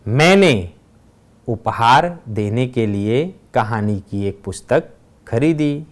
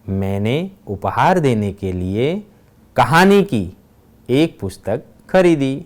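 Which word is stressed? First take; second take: मैंने; कहानी. First: The stress falls on the word मैंने. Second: The stress falls on the word कहानी. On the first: "पहले वाक्य में मैंने शब्द पर भार दिया गया है" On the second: "तीसरे वाक्य में कहानी शब्द पर भार दिया गया है"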